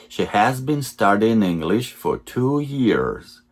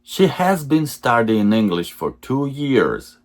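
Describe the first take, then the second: No difference in how they are said.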